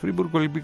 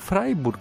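First: The first syllable sounds like 'free'. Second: The first syllable sounds like 'fry'. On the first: The speaker calls it wrong. "γιατί τη λέμε Φρίμπουργκ" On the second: The speaker calls it right. "το Φράιμπουργκ είναι κανονικά"

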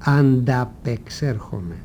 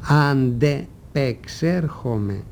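First: The vowel after 'ant' is an a sound. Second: The vowel after 'ant' is an e sound. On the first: The speaker calls it wrong. "και όχι ανταπεξέρχομαι" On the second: The speaker calls it right. "Το επαναλαμβάνω και το τονίζω προφέροντας μια-μια τις συλλαβές του"

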